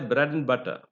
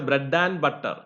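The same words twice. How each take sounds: First: The word 'and' is reduced to just 'n'. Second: The word 'and' is said in its full form. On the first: The speaker calls it right. "We say bread and butter. Therefore, only n is there" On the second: The speaker calls it wrong. "We don't say bread and butter"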